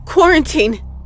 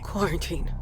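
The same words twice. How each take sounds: First: It is said loudly and firmly. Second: It is said quietly and less firmly.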